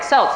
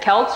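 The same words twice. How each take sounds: First: The word begins with a soft S sound. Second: The word begins with a hard K sound.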